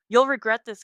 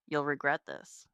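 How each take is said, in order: First: Loud, raised threat; angry threat. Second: Low, ominous replay of a threat; echoing remembered threat. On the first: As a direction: hurl it while being dragged off. Dragged away, shouting threats. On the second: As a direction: let it echo as a dark memory. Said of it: "Dallas's words echo in my head". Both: A narrator's reading.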